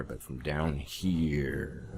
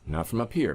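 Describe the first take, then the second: First: Low, slow voice from down deep; drawn-out low chest voice; deep belly voice. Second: Higher voice from up top; pitched up, away from the belly; high head voice. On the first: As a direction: drop the voice and stretch it out. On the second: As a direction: lift the voice up out of the chest. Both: Shown as a demonstration.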